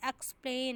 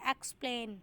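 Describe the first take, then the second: First: Said in the usual way. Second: एक्सप्लेन with the weight on 'plain'; stress on PLAIN. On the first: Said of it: "एक्सप्लेन पूरा word है". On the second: Shown as a demonstration. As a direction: lean on the second syllable of एक्सप्लेन. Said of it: "जो stress है वो प्लेन पे है".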